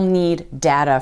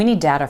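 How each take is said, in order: First: The two d sounds are said separately. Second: One linked d sound joins the two words. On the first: The speaker calls it wrong. "we won't say" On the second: The speaker calls it right. "a linked D sound"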